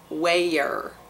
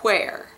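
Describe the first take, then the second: First: It is drawn out into almost two syllables. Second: It begins with an audible breathy H sound. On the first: This is how it sounds in the Deep South. "in the Deep South, it turns into almost two syllables" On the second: This is a regional variant from Tennessee. "he pronounces the H in where"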